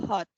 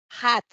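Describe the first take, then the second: First: "hot" as "hut", with short uh; schwa vowel. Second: "hot" with wide-open a, like "hat"; louder "hot", mouth opened wide to an a; open-A vowel. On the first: Teacher contrasting two sounds, "hot" with schwa. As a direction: barely open the mouth on "hot". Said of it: "y esta es con A". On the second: Teacher contrasting two sounds, "hot" with open a. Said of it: "esta es con A". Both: Shown as a demonstration.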